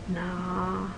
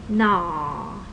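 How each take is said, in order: First: The pitch is low and level. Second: The pitch falls. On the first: It means a nickname. "low tone" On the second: It means face. "Falling tone"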